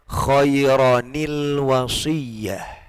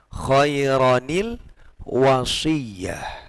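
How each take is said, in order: No difference in how they are said.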